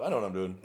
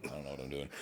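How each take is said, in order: First: Said in the usual way. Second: Softer, lower, muttered admission; mock quiet confession; sheepish aside. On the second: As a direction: drop the bravado and mumble it. Fake confidence, then admission.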